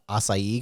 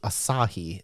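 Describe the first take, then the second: First: The name is said like the word acai. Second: The name is said as three syllables, a-sa-hi. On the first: The speaker calls it wrong. "I kept calling it a- acai because I didn't know how to pronounce it" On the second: The speaker calls it right. "So it's Asahi"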